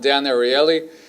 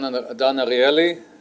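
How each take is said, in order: First: The name is said with an American accent. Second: The name is said with a non-American accent.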